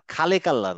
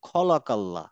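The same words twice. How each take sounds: First: খালেকাল্লা starting on an open khaa; wrong light kha. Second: খলাকাল্লা with a rounded khaw; round, heavy start to খলাকাল্লা; correct heavy kha. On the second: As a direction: say খলাকাল্লা full-mouthed on the first syllable. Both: Shown as a demonstration. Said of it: "খালেকাল্লা না".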